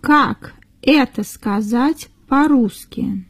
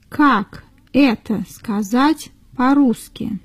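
Both takes have the same delivery.

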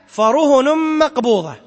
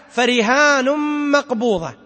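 First: فرهن مقبوضة recited slowly, فرهن short with no long vowel; variant reading. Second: فرهان مقبوضة recited slowly with a long ا in فرهان; slow recitation. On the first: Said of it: "وقرئ". (قراءة فرهن مقبوضة ببطء) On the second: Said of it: "هذا إشارة إلى قوله". (تلاوة بطيئة لفرهان مقبوضة) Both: Shown as a demonstration.

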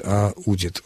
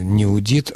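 First: Удит with the stress on у; stress on root. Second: Удит with the stress on дит; stress on last syllable. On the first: Expert corrects to the right form, удит stressed on у. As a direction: say удит stressed on the first syllable. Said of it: "ударение на корне". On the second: Expert rejects the wrong form, удит stressed on дит. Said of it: "в третьем лице должно было бы быть". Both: Shown as a demonstration.

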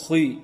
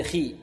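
First: خي with a thick, darkened vowel; over-heavy kha. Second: خي with a clean, clear long i; lightly heavy kha. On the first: Teacher shows what we don't say, خي too heavy. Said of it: "ولا نقول". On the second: Teacher gives the correction, خي only lightly heavy. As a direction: keep the i of خي thin and clear. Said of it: "وإنما هي". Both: Shown as a demonstration.

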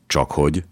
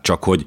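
First: "Csak hogy" echoed with a rising tune; puzzled question. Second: "csak hogy" left hanging on a falling tune; hesitant trailing off. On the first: Vitéz questioning the chancellor, puzzled rise on "Csak hogy". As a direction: ask "Csak hogy" back, uncomprehending, lifting the end. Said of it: "kérdezte Vitéz értetlenül". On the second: Chancellor holding back bad news, "csak hogy" falls and hangs. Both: A narrator's reading.

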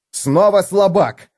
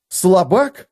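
First: Higher, louder, slow «Снова слабак»; outraged cry. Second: Higher, outraged echo of the insult; indignant exclamation. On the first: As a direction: spit out «слабак» with fury. Felix furious at repeated insult. (Феликс в бешенстве кричит «Снова слабак!») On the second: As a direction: repeat «Слабак» high and offended. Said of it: "воскликнул он". (Феликс возмущённо переспрашивает «Слабак?») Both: A narrator's reading.

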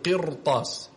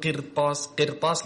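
First: قرطاس with the ra thick and broad; heavy ra. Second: قرطاس with the ra thinned and light; wrong light ra. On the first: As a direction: model قرطاس with a full, heavy ra. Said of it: "تقول". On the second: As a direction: show the mistake, a light ra in قرطاس. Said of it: "ما تقول". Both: Shown as a demonstration.

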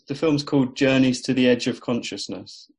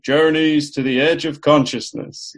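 First: Said in the usual way. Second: Big booming radio announcer voice. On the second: Retold or imitated. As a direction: boom the title out like an old radio announcer. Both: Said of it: "I pictured a big booming announcer saying".

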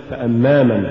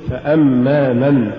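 First: فأما من hurried into one word; weak من tacked onto فأما; words run together. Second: Slow فأما, then a separate من; separate words. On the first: Teacher shows the mistake, فأما من run together. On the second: Teacher models correct recitation, فأما apart from من. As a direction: give من its own weight after فأما. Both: Shown as a demonstration. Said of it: "ولا تقل".

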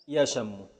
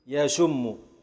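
First: يشم said "yashammu", doubled m; merged, with a. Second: يشم said "yashummu", doubled m; merged, with u. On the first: Teacher merging the two m's, يشم as ya-sham-mu. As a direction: put a on the sh of يشم and hold the m. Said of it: "إذا أدغمت الميمين". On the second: Teacher merging the two m's, يشم as ya-shum-mu. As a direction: put u on the sh of يشم and hold the m. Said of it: "فإذا أدغمته". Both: Shown as a demonstration.

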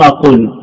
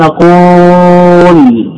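First: Said in the usual way. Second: "قول" with a very long held oo before the final l; drawn-out vowel. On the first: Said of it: "حذفت الواو فصار". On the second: Shown as a demonstration. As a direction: stretch the oo of "قول" right out to expose the hidden waw. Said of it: "هكذا أنت ما تنطق بهذا". («قول» بمدّ الواو مدًّا طويلًا)

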